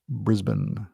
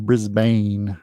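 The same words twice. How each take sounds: First: Brisbane is said in a non-American accent. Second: Brisbane is said in an American accent.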